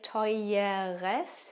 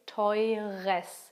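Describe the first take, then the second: First: An extra E is said before the R. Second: The E before the R is dropped. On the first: The speaker calls it wrong. "you don't say teures" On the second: The speaker calls it right. "you say teures"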